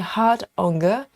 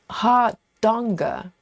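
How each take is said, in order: First: The d closes the first part: hard-onga. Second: The d opens the second part: har-donga. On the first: The speaker calls it wrong. "I separate in the wrong place. I say hard onga" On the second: The speaker calls it right. "It's hard donga"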